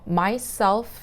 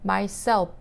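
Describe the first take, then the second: First: The middle consonant is an f sound. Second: The middle consonant is a p sound. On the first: The speaker calls it right. "이렇게 발음을 해야 되는데" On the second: The speaker calls it wrong. "이렇게 피 발음으로 발음을 한 거예요"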